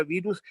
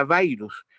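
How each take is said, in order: First: "virus" said "bi-rus", Spanish i. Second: "virus" said "bairus", English ai diphthong; anglicized virus. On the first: Linguist insisting the word is Spanish: "virus" as "birus". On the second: Linguist mocking the English pronunciation: "virus" as "bairus". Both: Shown as a demonstration. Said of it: "¿Por qué tenemos que pronunciarla virus?".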